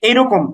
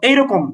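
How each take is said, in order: No difference in how they are said.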